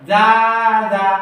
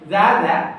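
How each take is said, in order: First: The syllables are drawn out with a singsong tune. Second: The syllables are short and plain without tune. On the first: The speaker calls it wrong. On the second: The speaker calls it right.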